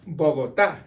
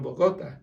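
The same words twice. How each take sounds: First: Bogotá stressed on the final "tá"; stress on last syllable. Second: Bogota wrongly stressed on "go", bo-GO-ta; stress on middle syllable. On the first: Teacher follows the tilde, Bogotá stressed on "tá". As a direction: punch the end of Bogotá, bo-go-TÁ. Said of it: "follow the stress mark". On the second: Teacher contrasts the unmarked way, Bogota stressed on "go". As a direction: move the weight to the "go" of Bogota. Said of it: "instead of Bogota". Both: Shown as a demonstration.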